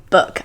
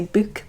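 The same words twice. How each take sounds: First: Said in the usual way. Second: BOOK with a long "oo", like "boook"; accented BOOK. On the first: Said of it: "every time I come to say book". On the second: Shown as a demonstration. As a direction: say BOOK to rhyme with "spook". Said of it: "I keep wanting to say book".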